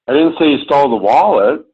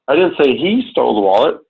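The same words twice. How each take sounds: First: The stress is on the word wallet. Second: The stress is on the word he.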